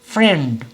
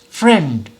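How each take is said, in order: First: The word is said in one single beat. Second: The word is said in one single beat.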